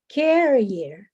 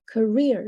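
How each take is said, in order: First: The stress is on the first syllable. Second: The stress is on the second syllable. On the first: The speaker calls it wrong. "the stress in, is in the second uh, in the first syllable" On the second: The speaker calls it right. "the stress is in the second syllable here"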